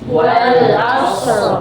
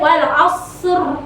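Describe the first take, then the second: First: The r sound is thick and heavy. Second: The r sound is thin and light. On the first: The speaker calls it right. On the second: The speaker calls it wrong.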